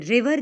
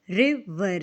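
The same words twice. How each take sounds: First: Said in the usual way. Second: रिवर split as रि - वर; a small break inside रिवर after रि; broken in two beats. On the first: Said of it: "रिवर जब हम बोलते हैं". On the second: Shown as a demonstration. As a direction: say रिवर in two separate syllables. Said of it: "हम एक flow में नहीं बोलते".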